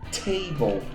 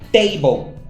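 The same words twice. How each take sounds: First: The T is said with a puff of air. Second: The T is said without a puff of air. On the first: "eles pronunciam mais aspirado" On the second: "É como os brasileiros normalmente que estão aprendendo pronunciam"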